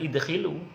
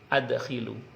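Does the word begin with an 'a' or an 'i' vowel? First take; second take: i vowel; a vowel. First: The word begins with an 'i' vowel. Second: The word begins with an 'a' vowel. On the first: The speaker calls it wrong. "jangan idkhilu" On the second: The speaker calls it right. "tapi adkhilu"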